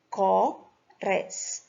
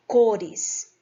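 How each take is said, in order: First: "Cores" pulled apart as Co - res, slowly; split into syllables. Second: Said in the usual way. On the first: Shown as a demonstration. Teacher showing students two syllables, "Cores" split slowly. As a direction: say "Cores" syllable by syllable with a clear gap. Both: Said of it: "Então, duas sílabas".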